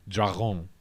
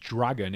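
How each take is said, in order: First: The word has a French pronunciation. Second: The word has an English pronunciation. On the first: "they pronounced it as dragon" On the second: "came to us as dragon in English"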